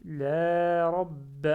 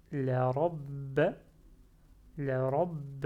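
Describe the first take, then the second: First: "la rabb" fort, "la" longuement étiré, b retenu; avec prolongement. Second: "la rabb" avec "la" bref, b retenu; sans med. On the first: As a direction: tenir le a de "la" avant "rabb". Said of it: "il faut faire le prolongement". (« la rabb » lent, long med sur "la") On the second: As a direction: passer vite de "la" à "rabb" sans prolonger le a. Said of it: "le med qui est en moins". (« la rabb » appuyé, sans étirer "la") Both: Shown as a demonstration.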